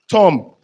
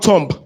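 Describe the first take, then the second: First: The silent letter is left unpronounced. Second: The silent letter is pronounced aloud. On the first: The speaker calls it right. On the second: The speaker calls it wrong. "not tomb"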